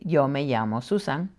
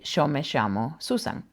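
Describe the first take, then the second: First: The double L sounds like English y. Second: The double L sounds like English sh. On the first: The speaker is from elsewhere in the Spanish-speaking world. "they pronounce it like a Y" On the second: The speaker is from Argentina or Uruguay. "if I were to say my name and I was from Argentina"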